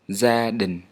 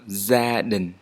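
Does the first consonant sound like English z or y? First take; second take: z; z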